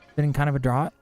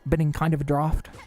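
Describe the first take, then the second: First: The last word rhymes with 'out'. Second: The last word rhymes with 'laughed'. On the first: The speaker calls it wrong. "Clearly says drought" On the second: The speaker calls it right. "Isn't it crazy that that's pronounced draft?"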